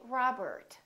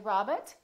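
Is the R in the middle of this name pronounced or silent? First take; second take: pronounced; silent. First: The middle R is pronounced, with a strong tongue curl. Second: The middle R is silent, with no tongue curl. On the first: This is the American way. The speaker calls it right. "Americans would say Robert" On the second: This is the British way. The speaker calls it wrong. "British people would say Robert, so don't say Robert"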